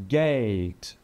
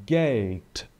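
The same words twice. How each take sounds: The two takes are said the same way.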